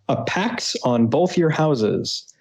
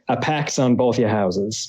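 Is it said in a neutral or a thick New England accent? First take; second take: neutral; New England. First: It is said in a plain, neutral accent. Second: It is said in a thick New England accent.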